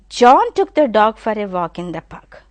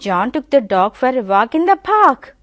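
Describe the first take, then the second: First: The stress falls on the word John. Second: The stress falls on the word park. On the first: It was John who took the dog. "immediately the stress I am giving on John" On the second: It was the park where they walked. "The stress is on park"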